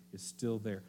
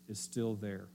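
Both takes have the same delivery.

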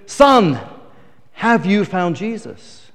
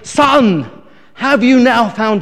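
First: Pastor asking. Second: Loud, slow, insistent pastor demand; upset pastor shouting. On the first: Pastor asks after first dunking. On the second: Upset pastor to drunk after third dunking, slow loud shout. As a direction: bellow the question at the soaked drunk. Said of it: "really upset that it wasn't working". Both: Retold or imitated.

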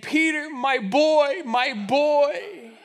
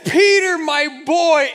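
First: Slow, tender dog voice, lightly voiced; a loyal old dog greeting his boy, drawn out. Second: Higher and louder dog voice crying out; the old dog calls to his boy at full voice; louder, higher take of the dog's line. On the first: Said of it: "in his dog voice is saying". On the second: Retold or imitated. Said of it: "He says".

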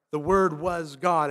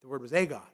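First: The Word was God, slow and deliberate; correct reading. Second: Single out "a" to mark the false reading; wrong reading. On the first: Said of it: "regardless of how you might interpret". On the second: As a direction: stress on "a" in "the Word was a God". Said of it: "to say". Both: Shown as a demonstration.

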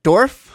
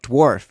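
First: "Dwarf?" squeaked much higher and louder with a rising question; a five-year-old failing the dw; kid's dwarf. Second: Put-on "Dwarf." said louder and deliberate, spelling out the dw sound for a child; patient parent saying "Dwarf."; careful dwarf. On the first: Retold or imitated. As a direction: imitate the child's squeaky "Dwarf?". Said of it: "he's like". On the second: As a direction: teach "Dwarf." to a kid. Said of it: "I'm like".

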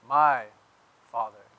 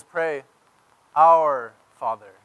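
First: My lightly leaned on, Father falling; stress on my. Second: Our said slow and loud, Father falling; stress on our. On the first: Pastor contrasting my Father with our Father. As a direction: tap the word my before Father. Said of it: "Jesus doesn't say". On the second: Pastor contrasting our Father with my Father. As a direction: draw out our with weight. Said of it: "He says". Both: Shown as a demonstration.

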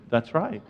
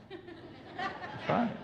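First: Said in the usual way. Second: Giggled through, high and quiet; laughing. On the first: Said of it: "She said". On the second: Real, not acted. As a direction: laugh as you repeat it. Repeats while laughing.

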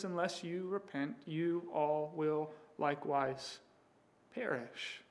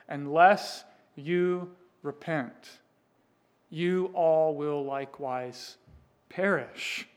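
First: Much softer, quiet and grave; Jesus quietly warning the outraged crowd; hushed warning. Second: Slow, deliberate and stern; Jesus warning the crowd, slow and firm; solemn warning. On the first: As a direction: drop to a near hush for the warning. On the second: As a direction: lay out each word like a verdict. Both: Acted.

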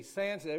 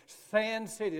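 First: Said in the usual way. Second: Sand City said higher and louder, hitting Sand; stress on Sand City. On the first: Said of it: "Not Sin City". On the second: Shown as a demonstration. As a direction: punch Sand City so nobody hears Sin City. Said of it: "Not Sin City, Sand City".

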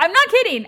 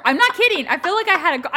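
First: Raised, emphatic insistence again; insistent. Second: Raised, emphatic insistence; insistent. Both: Real, not acted. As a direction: swear it's true, loudly.

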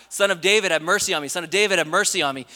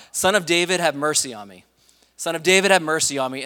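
First: High, loud mock cry for mercy; imitated shout from the crowd's edge; retold screaming. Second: Raised, louder call for mercy; retold cry, pitched up on the name. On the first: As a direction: call out insistently, higher and louder. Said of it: "he just started screaming out louder". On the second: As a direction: call out from the roadside, pleading for attention. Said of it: "uh, crying out".

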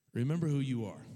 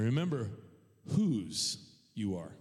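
First: Said in the usual way. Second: "whose" drawn out slowly; stress on WHOSE. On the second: Real, not acted. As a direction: land hard on a long "whose", then drop on "you are". Closing contrast, who versus whose.

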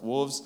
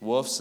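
First: Said in the usual way. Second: "Woofs" with no l, ending in f; West Virginia pronunciation. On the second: Shown as a demonstration. Pastor contrasts his West Virginia "Woofs" for the church. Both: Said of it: "Woofs instead of wolves".

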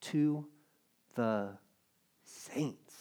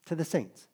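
First: "To", "the", "saints" each set apart with long pauses, softer; slow spaced-out reading. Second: "the" leaned on, falling at the end; stress on THE. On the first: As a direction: give "To the saints" word by word, letting "saints" fall quietly. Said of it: "It says what?". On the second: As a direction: hit "the" in To the saints. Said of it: "Not the sinners". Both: Shown as a demonstration.

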